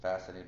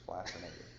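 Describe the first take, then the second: First: Said in the usual way. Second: "fascinated" with an L after the F; coined pun pronunciation. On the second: Shown as a demonstration. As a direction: say "fascinated" as "flascinated", like flat. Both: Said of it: "that's what they call people".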